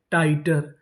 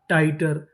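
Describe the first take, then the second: No difference in how they are said.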